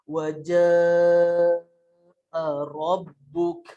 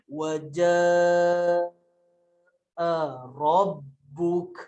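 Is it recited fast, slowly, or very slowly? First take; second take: slowly; very slowly. First: It is recited slowly. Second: It is recited very slowly.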